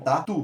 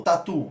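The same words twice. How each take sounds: First: "tatu" split into ta, tu, leaning on "tu"; syllable by syllable. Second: Said in the usual way. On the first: Shown as a demonstration. Teacher asking for the stressed syllable, "tatu" broken in two. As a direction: separate the two beats of "tatu". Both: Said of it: "Qual que é a sílaba tônica?".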